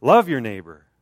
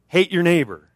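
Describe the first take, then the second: First: "Love your neighbor" with "love" stressed and louder; correction. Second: "hate your neighbor" said loud and higher as a joke slip; deliberate wrong word. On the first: Preacher correcting his joke misquote, firm stress. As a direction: land firmly on "Love". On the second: Preacher misquoting Jesus to the congregation, louder joking. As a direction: hit "hate" louder as a planted mistake. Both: Shown as a demonstration.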